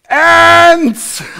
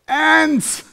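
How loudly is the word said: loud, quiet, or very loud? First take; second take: very loud; loud. First: The word is said very loudly, almost shouted. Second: The word is said noticeably louder.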